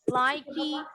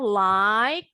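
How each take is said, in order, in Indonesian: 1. Setelah bunyi k ada vokal tambahan. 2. Kata ini berakhir dengan bunyi k. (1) "nggak ada like, likey" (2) "Huruf E-nya nggak pernah bunyi"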